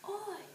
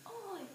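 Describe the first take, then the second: First: It is said in a harsh, punkish way. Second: The same.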